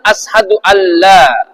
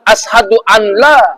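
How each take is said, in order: First: The n merges into a doubled l. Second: The n is said clearly before the l. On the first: The speaker calls it right. "tetapi bacanya" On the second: The speaker calls it wrong. "kalau baca Allah maka batallah bacaannya"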